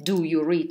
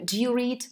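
First: The word do is said fully and distinctly. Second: The word do is weak and barely distinct. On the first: The speaker calls it wrong. "Мы никогда утрированно не произносим ни do... мы не говорим" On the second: The speaker calls it right. "мы говорим... мы не произносим это очень четко"

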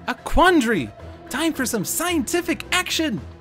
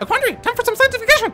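First: The line is spoken at a normal speed. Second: The line is spoken very quickly.

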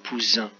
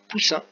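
First: The middle consonant is a Z sound. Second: The middle consonant is an S sound. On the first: "le S est compris entre deux voyelles, ça fera poussin" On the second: "si je veux le son S, je mets deux S"

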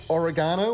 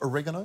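First: It is said in a non-American way. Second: It is said in an American way.

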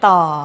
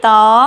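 First: The syllable has a low tone. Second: The syllable has a high tone. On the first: "ไม้เอก" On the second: "ไม้ตรี"

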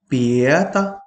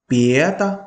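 The two takes are said the same way.

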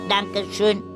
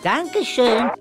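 First: It is said in a flat robotic voice. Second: It is said in a normal natural voice. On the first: The speaker calls it right. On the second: The speaker calls it wrong.

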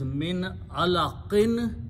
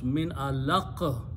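First: The word ends with a full '-in' ending. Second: The word ends abruptly on the 'q' sound. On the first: The phrase continues without a stop. "So the word is" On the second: The reader stops at this word. "When you stop, you pronounce"

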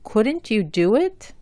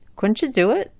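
First: Each word is said clearly and separately. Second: The words run together and link. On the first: "la pronuncio bien y claramente" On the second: "juntando o enlazando las letras"

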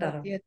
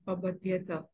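First: The word ends on a bare t sound. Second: The word ends with a full ta syllable. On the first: The speaker calls it wrong. "Not abadhyat" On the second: The speaker calls it right. "Ta is full"

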